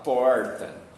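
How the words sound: It is said with an inland São Paulo accent. "Se eu sou do interior de São Paulo, eu vou falar porta"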